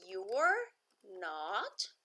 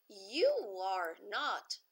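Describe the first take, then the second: First: You and are are joined into one syllable. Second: All three words are said separately.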